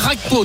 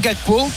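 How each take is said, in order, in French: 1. Le nom Gakpo se prononce à la manière néerlandaise. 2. Le nom Gakpo se prononce à la manière française. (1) "ça veut dire qu'on va prononcer vraiment la néerlandaise" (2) "Je vais jouer Gakpo"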